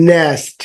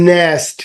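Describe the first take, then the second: No difference in how they are said.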